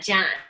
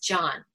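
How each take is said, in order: First: The vowel is flat and fronted, Chicago-style. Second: The vowel is open and back, standard-style. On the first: The speaker calls it wrong. "I didn't know that I said Jan" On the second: The speaker calls it right. "It's John"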